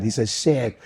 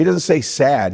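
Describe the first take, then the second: First: "sad" with a Queens vowel; Queens accent. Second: Said in the usual way. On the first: Shown as a demonstration.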